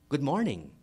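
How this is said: The greeting is lively, with a clear melodic intonation. "You see the intonation?"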